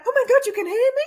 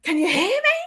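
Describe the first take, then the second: First: Much higher, loud thrilled gasp of a question; excited disbelief. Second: High, loud plain call. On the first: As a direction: act amazed they answered. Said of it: "I behaved like". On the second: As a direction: call out, then listen. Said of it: "I did it that way instead". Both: Retold or imitated.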